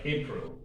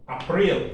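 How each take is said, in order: First: April said with the English "ay" vowel. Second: April with an open "ah" vowel; German April. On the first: Teacher comparing it for students with English April. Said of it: "like April". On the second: Teacher repeating the German form for students, German April. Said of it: "April, like April". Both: Shown as a demonstration.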